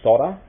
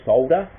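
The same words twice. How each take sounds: First: The word is pronounced the American way. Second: The word is pronounced the Australian way. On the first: "I know a lot of Americans say solder" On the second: "we say solder"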